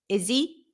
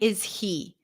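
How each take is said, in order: First: The H is dropped and the words run together. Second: The H is pronounced and the words are separate. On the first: The speaker calls it right. "I want to connect the words, and to help me do that, I drop the H" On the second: The speaker calls it wrong. "I'm not saying is he"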